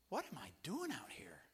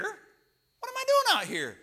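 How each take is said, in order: First: Acted whisper to himself; hushed, dramatized second thoughts; whispered self-doubt. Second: Loud, high, drawn-out mock panic; slow, exaggerated high yell; acted panicked outcry. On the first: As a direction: whisper it as a worried private thought. Voicing own doubt on shaky pier. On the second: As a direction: cry it out in hammed-up dismay. Doubt escalates to panicked cry.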